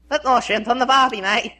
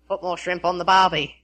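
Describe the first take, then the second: First: It is said in a put-on funny voice. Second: It is said in his normal voice.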